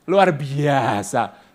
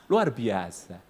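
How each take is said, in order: First: Very slow, stretched luar biasa; drawn out. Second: Said in the usual way. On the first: Shown as a demonstration. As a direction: draw out luar biasa syllable by syllable.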